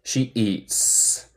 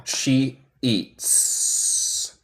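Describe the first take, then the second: First: "She eats." repeated with the hissed "s"; repeat model. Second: "She eats." with a sharp hissed "s" at the end; soft model of "She eats."; crisp S demo. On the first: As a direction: say "She eats." again for the class. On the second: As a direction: clip the final "s" of "eats" as a hiss. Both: Shown as a demonstration. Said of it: "es un S normal de español".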